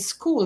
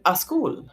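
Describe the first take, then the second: First: The word starts directly with the s sound. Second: An added vowel sound comes before the s. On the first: The speaker calls it right. "instead of saying school" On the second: The speaker calls it wrong. "they're saying a school"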